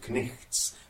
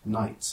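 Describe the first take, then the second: First: The k is sounded, with a throaty ch sound. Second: The k is silent, with no throaty ch sound. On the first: This is the older, medieval pronunciation. "were called knichts" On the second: This is the modern pronunciation. "as we now say"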